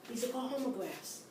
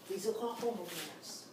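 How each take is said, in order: No difference in how they are said.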